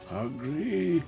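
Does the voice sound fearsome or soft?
soft. It is said in a softer, gentler voice.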